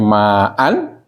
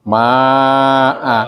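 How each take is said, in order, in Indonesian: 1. Kata ini berakhir dengan bunyi n. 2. Kata ini berakhir dengan vokal panjang tanpa n. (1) "jadi jadi ma'an dibaca" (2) "kalau berhenti nanti dibaca ma'a"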